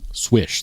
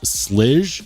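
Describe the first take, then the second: First: The name begins with an 'sw' sound. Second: The name begins with an 'sl' sound. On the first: This is the maker's own pronunciation. The speaker calls it right. "It's pronounced like swish" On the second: This is the common way people say it. The speaker calls it wrong. "Everyone says Slidge"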